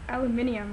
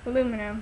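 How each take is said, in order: First: It has five syllables, with an extra i sound. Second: It has four syllables, with no extra i sound. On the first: "I think British people pronounce it aluminium" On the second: "we're weird, we're Americans"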